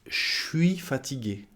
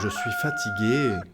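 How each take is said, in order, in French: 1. 'Je' se réduit à un sh sifflant. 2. 'Je' se prononce en entier avec un zh sonore. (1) "En français parlé, on dira" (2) "C'est tellement formel, c'est pas du tout du français parlé"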